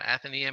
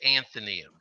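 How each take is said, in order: First: It begins with 'Ath' and no added n. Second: It begins with an added n, like 'Anthony'. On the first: The speaker calls it right. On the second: The speaker calls it wrong.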